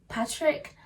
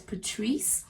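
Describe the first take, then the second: First: The name ends with a 'k' sound. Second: The name ends with an 's' sound. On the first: The speaker calls it wrong. "I kept pronouncing his name as" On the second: The speaker calls it right. "his name is pronounced as Patrice"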